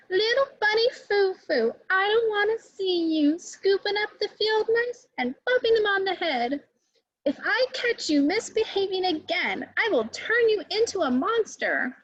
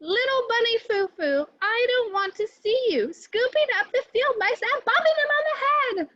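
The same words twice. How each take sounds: First: High, stern fairy warning the bunny. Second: Much higher, louder furious scolding; angry fairy. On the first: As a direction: scold like a strict good fairy. Good fairy warns bunny Foo Foo. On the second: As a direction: scold the bunny with real anger. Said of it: "she cried". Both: Acted.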